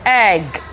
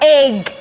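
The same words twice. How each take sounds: First: The vowel sounds like a short 'eh'. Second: The vowel sounds like a long 'ee'. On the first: The speaker calls it right. "Tetapi ini bacanya egg" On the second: The speaker calls it wrong. "Salah, bukan egg"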